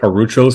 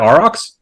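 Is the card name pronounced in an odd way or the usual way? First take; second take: odd; usual. First: The name is pronounced in an odd, altered way. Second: The name is pronounced the usual way.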